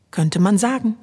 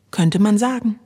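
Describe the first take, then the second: No difference in how they are said.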